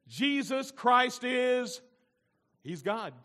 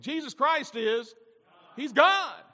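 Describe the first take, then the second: First: It is said hesitantly, without much confidence. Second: It is said firmly, with full confidence. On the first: The speaker calls it wrong. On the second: The speaker calls it right.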